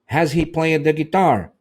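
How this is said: It is said with question-like intonation. The speaker calls it right. "Então eu coloquei a entonação de pergunta"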